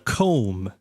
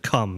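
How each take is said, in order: First: The vowel is a gliding diphthong. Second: The vowel is a short plain vowel. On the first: The speaker calls it right. "It's actually a comb" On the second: The speaker calls it wrong. "not a cum"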